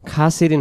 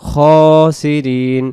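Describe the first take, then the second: First: The first vowel is an open, clear 'a'. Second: The first vowel is a darker, rounded 'o'-like sound. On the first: The speaker calls it wrong. "খাসিরিন হবে না" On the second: The speaker calls it right. "উচ্চারণ হবে খসিরিন"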